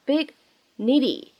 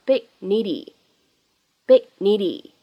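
First: Said in the usual way. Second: "big needy" with the g held back; incomplete plosion. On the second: Shown as a demonstration. Teacher drilling "big needy" with an unreleased g. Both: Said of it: "放在一起不完全爆破".

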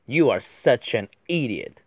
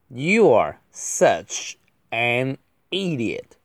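First: Said in the usual way. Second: Very slow, gaps between words; drawn-out word-by-word delivery; slow model reading. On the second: Shown as a demonstration. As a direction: space out each word for learners. Slow model reading, then faster repeat.

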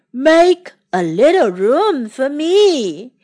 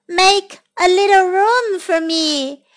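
First: Put-on low creature voice; big beast asking for space; deep voice. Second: Higher, lilting storybook request; high-voiced little newcomer; calling out. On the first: A narrator's reading. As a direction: darken the voice and draw the words out. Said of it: "said a deep voice from the water". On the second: Voice asking, before deep-voiced take.

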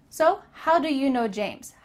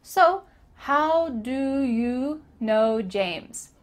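First: "So, how do you know James" at normal speed, linked; "how do you" mumbled as howdya; lazy linked. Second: Very slow "So, how do you know James" with lazy lips; "how do you" blended, slowed down; slow lazy demo. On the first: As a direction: run "how do you" together. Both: Shown as a demonstration. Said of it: "not moving your lips very much".

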